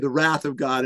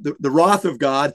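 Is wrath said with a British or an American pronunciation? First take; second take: American; British. First: Wrath is said with an American pronunciation. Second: Wrath is said with a British pronunciation. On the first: "In the US, I will say the wrath of God" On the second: "I lived in England and we talked about the wrath of God"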